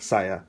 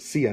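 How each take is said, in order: First: The first vowel sounds like 'sigh'. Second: The first vowel sounds like 'see'. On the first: The speaker calls it wrong. "not Saya, like a lot of people do" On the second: The speaker calls it right. "her name is pronounced [name]"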